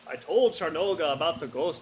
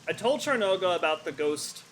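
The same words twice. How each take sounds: First: It is read in a put-on Nord accent. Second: It is read in the speaker's normal voice. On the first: The speaker calls it right. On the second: The speaker calls it wrong.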